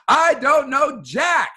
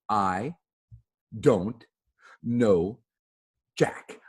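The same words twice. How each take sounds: First: It is yelled loudly, at full voice. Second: It is said at a normal volume.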